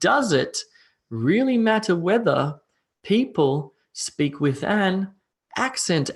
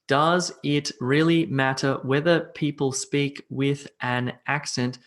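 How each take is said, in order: First: The words are grouped with pauses in odd places. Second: Each word is said separately, like a robot. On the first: "weird chunking" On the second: "I sound like a computer"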